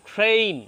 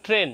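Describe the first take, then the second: First: ট্রেন with a drawn-out ei glide; corrected long vowel. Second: ট্রেন with a short pure e; wrong short vowel. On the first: Teacher corrects learners, ট্রেন as long "treyn". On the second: Teacher mimics learners' mistake, ট্রেন as "tren". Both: Shown as a demonstration. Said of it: "not ট্রেন".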